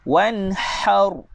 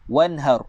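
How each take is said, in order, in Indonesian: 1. Bunyi h-nya didorong keluar dengan nafas kuat. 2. Bunyi h-nya ringan dan biasa. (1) "Kita kena pedaskan dia. Keluarkan angin" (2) "kita telah baca dia dengan huruf ha simpul"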